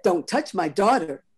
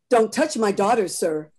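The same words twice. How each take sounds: First: Cold repeat. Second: A louder stern warning with DON'T pushed. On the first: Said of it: "May's voice was cold". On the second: Mother warning the conductor off her daughter, sternly. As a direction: warn him off her child. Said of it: "May Ford said sternly". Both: Acted.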